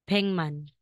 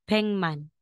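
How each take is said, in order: First: The first syllable ends in an ng sound. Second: The first syllable ends in an ng sound.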